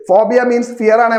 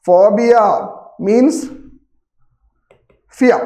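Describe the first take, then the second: First: Said in the usual way. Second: phobia, then means, then fear, each alone after a long pause; spaced out word by word. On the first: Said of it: "phobia means fear ആണേ മക്കളെ". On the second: Shown as a demonstration. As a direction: say phobia ... means ... fear slowly with full stops between. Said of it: "സെറ്റാണ്, കിട്ടുമല്ലോ". (Phobia ... means ... fear എന്ന് ഓരോ വാക്കും നിർത്തി പറയുക)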